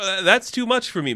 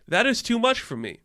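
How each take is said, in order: First: Said in the usual way. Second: That is too much for me, pitch much higher and stress on "much"; insistent repeat, "much" stressed; emphatic repeat. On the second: Real, not acted. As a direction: push it higher and lean on "much".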